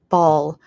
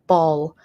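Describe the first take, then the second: The two takes are said the same way.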